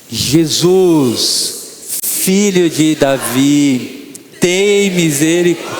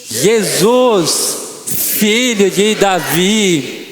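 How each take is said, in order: First: It is said loudly. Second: It is said very loudly, with full force.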